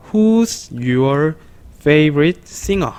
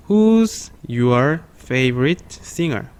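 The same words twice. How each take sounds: First: Said in the usual way. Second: Very slow, word by word; slow read-along. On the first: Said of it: "요렇게 발음을 할 수가 있습니다". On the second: Shown as a demonstration. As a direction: stretch every word so the class can follow. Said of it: "천천히 시작".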